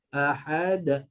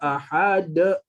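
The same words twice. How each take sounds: First: The d bounces lightly and naturally. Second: The d bounce is pushed out with force. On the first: The speaker calls it right. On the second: The speaker calls it wrong.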